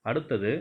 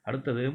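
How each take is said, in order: The two takes are said the same way.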